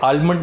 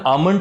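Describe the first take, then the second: First: The word is said with an L sound. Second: The word is said without an L sound. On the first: The speaker calls it wrong. "आलमंड नहीं।" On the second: The speaker calls it right. "इसकी सही pronunciation आमंड होती है, इसमें एल silent रहता है।"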